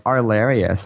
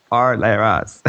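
First: "Arlarius" drawn out as ar-LAIR-ee-us; slow "Arlarius" with an added "ee" before "us"; extra syllable. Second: "R, lair, us" in three separate parts; corrected pronunciation. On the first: Podcaster showing how guildmates added letters, mispronounced. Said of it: "they were adding extra words". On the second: Player correcting guild boss on the name, deliberate. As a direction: say "R, lair, us" with no "ee" before "us". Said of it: "It's not". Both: Retold or imitated.

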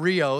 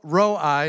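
First: Rio said as REE-oh, the misprint; mock the misprint Rio, REE-oh; wrong pronunciation. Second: Roi said as one syllable, ROY; correct pronunciation. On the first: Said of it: "a misprint that says Rio". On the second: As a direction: say Roi like ROY, not Rio. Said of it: "not Rio". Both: Shown as a demonstration.

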